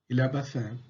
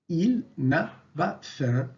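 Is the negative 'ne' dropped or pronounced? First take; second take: dropped; pronounced. First: The negative 'ne' is dropped entirely. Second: The negative 'ne' is fully pronounced. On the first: "À l'oral, ... Pas de nœud" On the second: "À l'écrit, on écrit"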